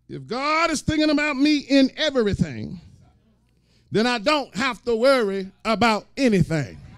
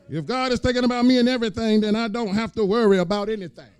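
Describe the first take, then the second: First: It is said at a slower pace. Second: It is said at a faster pace.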